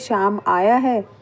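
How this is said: It is said in a neutral, matter-of-fact tone. It simply gives information. "अगर हम normal इस sentence को बोलते हैं"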